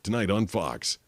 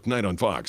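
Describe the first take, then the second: First: It is said at a measured, medium pace. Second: It is said quickly and rushed. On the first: It fits the allotted time exactly. The speaker calls it right. "one point eight seconds. So you have to be like" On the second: It falls short of the allotted time. The speaker calls it wrong. "you don't want to go ... because that's like one"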